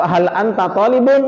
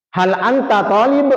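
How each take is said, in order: First: Talibun with the final -un said out; full case ending. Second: Slow rising question, Arabic drill; question intonation. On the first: Teacher showing the fuller form to students, ending said out. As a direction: add the ending and say "talibun" fully. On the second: Teacher modelling a question for students, slow rising tune. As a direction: read it as a clear question to the class. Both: Shown as a demonstration. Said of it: "Saya akan bacakan seperti ini intonasinya".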